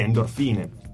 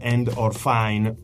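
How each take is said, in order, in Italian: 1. Il nome si pronuncia all'italiana. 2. Il nome si pronuncia all'inglese.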